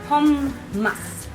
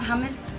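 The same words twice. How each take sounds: First: The middle m sound is held long. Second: The middle m sound is short. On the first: The speaker calls it right. "it's hummus with a double M" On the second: The speaker calls it wrong. "it's not hummus"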